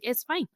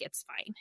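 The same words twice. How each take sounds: First: Higher, bright it's fine with a lift; reassuring it's fine with a rising end; mother comforting the crying ophthalmologist; light reassurance. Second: Breathy whisper, shrugging it off; a hushed it's fine to the doctor; mother quietly waving off the ophthalmologist; whispered brush-off. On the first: Mom reassuring crying doctor. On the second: Mom brushing off doctor's concern. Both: Retold or imitated.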